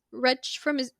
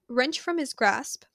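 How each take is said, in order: First: "wrench" misread as "retch", without the n; slip of the tongue. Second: Said in the usual way. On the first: Real, not acted.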